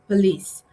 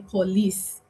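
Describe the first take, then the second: First: It is said the other, non-Nigerian way. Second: It is said the common Nigerian way. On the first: The speaker calls it right. "I love the way she pronounced it" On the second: The speaker calls it wrong. "Most Nigerians will say police"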